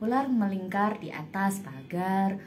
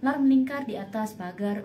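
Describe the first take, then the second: First: The phrase is spoken slowly. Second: The phrase is spoken quickly. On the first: "pertamanya pelan dulu aja nggak apa-apa" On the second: "Nanti tambah lagi nih"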